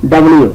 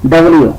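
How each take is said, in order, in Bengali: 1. দ্রুত বলা হয়, অংশ দুটো একসাথে মিলিয়ে। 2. দ্রুত বলা হয়, অংশ দুটো একসাথে মিলিয়ে।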